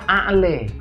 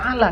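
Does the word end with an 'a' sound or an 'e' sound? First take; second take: e; a. First: The final vowel sounds like e. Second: The final vowel sounds like a. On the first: "tapi a'le" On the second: "tidak membaca a'la"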